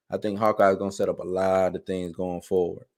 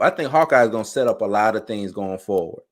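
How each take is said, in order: First: Softer, as if to himself; quieter repeat. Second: Said in the usual way. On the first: Shown as a demonstration. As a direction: let the repeat drop down softly. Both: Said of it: "repeated line".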